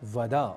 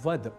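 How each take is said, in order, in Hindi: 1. अंतिम छोटा a पूरी तरह उच्चारित होता है। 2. अंतिम छोटा a लुप्त हो जाता है। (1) "यहां एक शब्द आया वद" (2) "अन्य भाषाओं से प्रभावित बल्कि कुप्रभावित होकर बोल जाते हैं"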